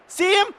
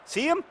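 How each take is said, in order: First: Excited shout. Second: Excited. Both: Real, not acted. Player about to score.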